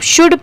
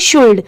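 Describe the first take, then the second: First: The L sound is left out entirely. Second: The L sound is clearly pronounced. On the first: The speaker calls it right. "पढ़ते time हम सिर्फ शुड पढ़ेंगे, शुल्ड नहीं" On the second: The speaker calls it wrong. "अगर हम इसे पढ़े तो यहाँ पर ये शुल्ड लिखा है ... बट नहीं"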